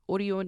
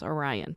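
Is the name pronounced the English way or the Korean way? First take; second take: Korean; English. First: The name is said with a Korean pronunciation. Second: The name is said with an English pronunciation. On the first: "Orion is how it's pronounced in Korean" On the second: "you might pronounce it as Orion"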